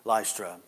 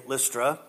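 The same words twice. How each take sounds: First: First syllable of "Lystra" rhymes with lie; long-i Lystra. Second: First syllable of "Lystra" rhymes with miss; short-i Lystra. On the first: Preacher shows how some say a Bible name, "Lystra" as LIE-struh. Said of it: "Some say Lystra". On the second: Preacher picks his way to say a Bible name, "Lystra" as LISS-truh. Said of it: "I'm gonna say Lystra". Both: Shown as a demonstration.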